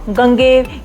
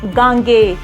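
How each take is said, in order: First: The name ends with a 'v' sound. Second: The name ends without a 'v' sound. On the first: The speaker calls it wrong. "जो कि अशुद्ध स्वरूप है" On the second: The speaker calls it right. "शुद्ध नाम है"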